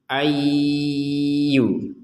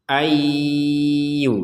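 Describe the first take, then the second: No difference in how they are said.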